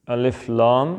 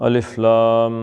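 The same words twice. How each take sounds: Both takes have the same delivery.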